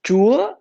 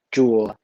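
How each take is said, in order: First: "chúa" high and rising, louder. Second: "chùa" low and falling. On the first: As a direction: push "chúa" up sharply in pitch. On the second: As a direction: let "chùa" sink in pitch. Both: Shown as a demonstration. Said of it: "With the different accents on the wording".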